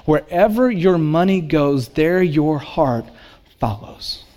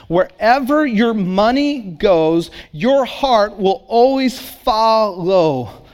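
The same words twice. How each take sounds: First: Slowing, the last word fading to a breath. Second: Each word of "Wherever your money goes" given weight, slow; slow emphasis. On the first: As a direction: let "follows" fade almost to a whisper. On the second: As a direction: spell it out slowly so it sinks in. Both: Acted. Sermon key line repeated.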